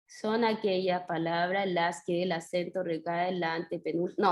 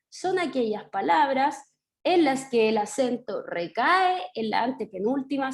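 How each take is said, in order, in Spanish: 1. La voz se mantiene plana, sin subidas ni bajadas. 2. La voz sube y baja a lo largo de la frase. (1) "algo así, como recto" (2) "leer con subidas y bajadas sería"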